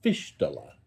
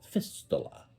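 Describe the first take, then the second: First: "Fistula" said with a sh sound, FISH-tula; tentative pronunciation. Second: "Fistula" with a clear s, FIS-tuh-luh; spelled-out pronunciation. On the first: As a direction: say "Fistula" as FISH-tuh-luh. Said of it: "I think I'm pronouncing that right". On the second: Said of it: "F I S T U A L". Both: Shown as a demonstration.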